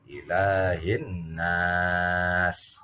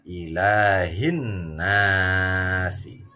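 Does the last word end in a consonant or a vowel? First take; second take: consonant; vowel. First: The last word ends on a bare consonant. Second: The last word ends with an added vowel. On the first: The reading stops at this word. "kalau dibaca waqaf" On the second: The reading continues without stopping. "Kalau dibaca wasol"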